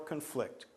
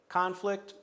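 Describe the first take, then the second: First: The stress is on the second syllable. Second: The stress is on the first syllable. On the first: The word is used as a verb. "Conflict would be the verb" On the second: The word is used as a noun. "Conflict is the noun"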